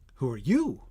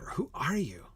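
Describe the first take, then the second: First: The stress falls on the word you. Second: The stress falls on the word are. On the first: The speaker calls it right. "The stress is on you" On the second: The speaker calls it wrong. "The stress isn't on are"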